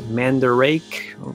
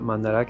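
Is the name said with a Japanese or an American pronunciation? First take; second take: American; Japanese. First: The name is said with an American pronunciation. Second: The name is said with a Japanese pronunciation. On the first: This is how people in America might say it. "In America, what do you call it?" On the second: This is how people in Japan say it. "Here in Japan, they call it"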